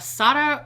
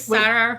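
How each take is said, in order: First: The name has a Spanish-style pronunciation. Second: The name has a plain English pronunciation. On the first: This is how people usually say the name. "that's how like people are saying it" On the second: This is the speaker's own usual way of saying it. "Can I just say Sarah?"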